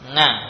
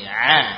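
First: It starts with a nasal ng sound. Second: It starts with a throat sound, no nasal. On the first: The speaker calls it wrong. "ini bukan ain ya" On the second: The speaker calls it right. "Diusahakan ain seperti ini"

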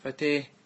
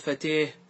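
First: The long vowel leans toward an e sound. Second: The long vowel leans toward an e sound.

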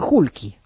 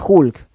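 First: An extra vowel is added after the k. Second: The word ends on the consonant k. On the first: "Pero dicen Hulky" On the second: "Era Hulk"

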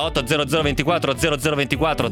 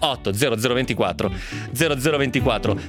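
First: The number is said quickly. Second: The number is said slowly. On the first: The speaker calls it wrong. "lo dico troppo in fretta" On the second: The speaker calls it right. "più piano"

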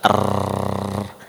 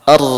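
First: The r keeps vibrating in a long trill. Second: The r is short, its vibration quickly stopped. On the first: The speaker calls it wrong. "Kalau enggak ada celah itu, niscaya akan terus bergetar" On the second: The speaker calls it right. "Kalau kita membaca huruf ra dengan cara yang benar, kita rasakan pada bagian depan terbuka dan ada aliran suara"

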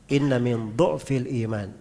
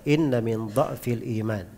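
First: The word is said with a 'u' vowel. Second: The word is said with an 'a' vowel. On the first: "di dhamma dotnya" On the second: "Bisa dibaca dha'fi di fathah dotnya"

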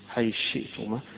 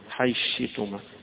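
First: The th sound merges into the following sh. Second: The th sound merges into the following sh.

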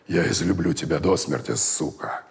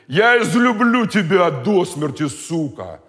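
First: It is spoken in a soft whisper. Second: It is spoken aloud in a normal voice. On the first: The speaker calls it right. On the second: The speaker calls it wrong.

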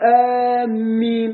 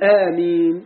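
First: The m sound is doubled and held. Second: The m sound is single and short. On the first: It means people heading toward a place. The speaker calls it wrong. "ولا يجوز تشديد الميم، لا يصح تقول آمين غير المعنى" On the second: It means answer our prayer. The speaker calls it right. "قل آمين بالتخفيف"

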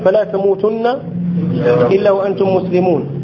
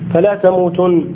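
First: The phrase runs on past تموتن without stopping. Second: The phrase ends with a full stop after تموتن. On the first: The speaker calls it right. "هي فلا تموتن إلا وأنتم مسلمون" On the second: It sounds like a command not to die. The speaker calls it wrong. "من الوقوف القبيحة أن تقول فلا تموتن"

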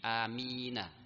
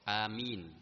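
First: The final n is followed by an 'a' vowel. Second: The word ends on a stopped n, no vowel. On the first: The word is joined to what follows. "Jadi amina, ya, di fathah" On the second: The reciting pauses after the word. "di waqaf. Amin. Waqaf, berhenti"

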